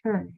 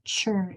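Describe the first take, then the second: First: It begins with a clear t sound. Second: It begins with a ch sound. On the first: The speaker calls it right. "it's tur" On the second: The speaker calls it wrong. "It's not chur"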